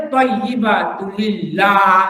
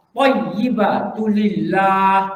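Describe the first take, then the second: First: "thayyibatu lillah" with the final ha dropped, "lilla"; wrong recitation. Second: "Thayyibatu lillah" slow, with the ha of "lillah" clearly sounded; correct recitation. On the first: Teacher imitating a misreading that drops the letter ha. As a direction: clip "lillah" so the ha disappears. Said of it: "Bila dia buang ha, dia kurang huruf". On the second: Teacher showing students the proper reading, slow and careful. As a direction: recite "Thayyibatu lillah" slowly and breathe out the final ha. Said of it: "Dia buang apa? ... Bila dia buang ha".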